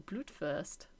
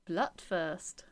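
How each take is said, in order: First: "Blutwurst" with a long oo, like "bloot"; long-vowel Blutwurst. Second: "Blutwurst" with a short u, like "blutt"; short-vowel Blutwurst. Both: Shown as a demonstration. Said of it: "Or Blutwurst".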